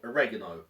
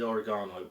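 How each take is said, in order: First: It is pronounced the American way. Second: It is pronounced the British way.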